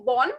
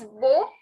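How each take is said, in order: First: Bon with a full n at the end; wrong sounded N. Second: Bo left open, no n consonant; unstressed N. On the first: Teacher showing the mistake in bonsoir, n sounded. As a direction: close "bon" on a clear n. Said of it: "don't say bon". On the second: Teacher correcting the start of bonsoir, open nasal ending. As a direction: say "bo" without closing on n. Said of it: "It is bo". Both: Shown as a demonstration.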